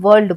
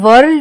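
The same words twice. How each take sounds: First: No R sound is pronounced before the L. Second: An R sound is pronounced before the L. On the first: The speaker calls it right. "हम वर्ल्ड बोलते हैं" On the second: The speaker calls it wrong. "हम वर्ल्ड नहीं बोलते"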